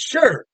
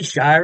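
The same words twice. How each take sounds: First: The word is pronounced the British way. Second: The word is pronounced the American way. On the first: The speaker calls it right. "it's Shire" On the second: The speaker calls it wrong. "Don't say Shire, ... You'll sound like a Yankee if you say Shire"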